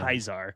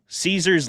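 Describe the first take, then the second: First: The name begins with a hard K sound. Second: The name begins with a soft S sound. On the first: The speaker calls it right. "oh, sorry, yeah, it's Kaiser" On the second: The speaker calls it wrong. "That's Kaiser"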